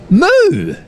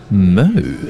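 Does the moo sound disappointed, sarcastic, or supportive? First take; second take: supportive; sarcastic. First: It sounds supportive, like a cow cheering someone on. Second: It sounds sarcastic, in a Valley Girl style.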